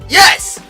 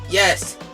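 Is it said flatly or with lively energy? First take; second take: lively; flatly. First: It is said with lively, excited energy. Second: It is said flatly, without much energy.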